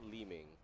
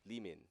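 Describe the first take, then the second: First: The name ends with an ng sound. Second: The name ends with an n sound. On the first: The speaker calls it wrong. "real pronunciation is not Liming" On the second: The speaker calls it right. "It's Limin because it's in Chinese"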